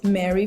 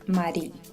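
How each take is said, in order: First: The name is said with an English pronunciation. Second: The name is said with a Spanish pronunciation. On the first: "I accept Mary for English speakers" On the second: "the correct pronunciation is Mari because my name is Cuban"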